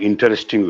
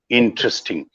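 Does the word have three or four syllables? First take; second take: four; three. First: The word is said with four syllables. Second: The word is said with three syllables. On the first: The speaker calls it wrong. "not interesting ways" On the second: The speaker calls it right. "the three syllables is interesting"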